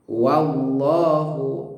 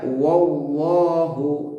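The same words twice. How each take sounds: First: The 'wa' is light; only Allah is heavy. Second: The 'wa' is also said heavy. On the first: The speaker calls it right. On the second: The speaker calls it wrong.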